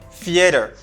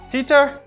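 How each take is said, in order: First: The word begins with a th sound. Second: The word begins with a plain t sound. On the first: The speaker calls it right. "It's theater" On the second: The speaker calls it wrong. "It's not Titer"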